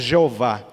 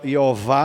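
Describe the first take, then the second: First: The name starts with a 'zh' sound. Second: The name starts with a 'y' sound. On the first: "a gente lê o J" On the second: "em vez de Jeová"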